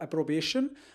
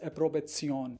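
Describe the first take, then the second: First: The word is said with English pronunciation. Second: The word is said with German pronunciation. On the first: "In English, it is pronounced as uh" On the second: "but in German language, it is pronounced as"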